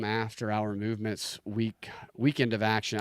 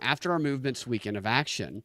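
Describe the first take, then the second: First: It is read in the speaker's own natural voice. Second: It is read with a put-on, imitated inflection.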